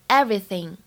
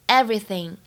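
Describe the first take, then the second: Both takes have the same delivery.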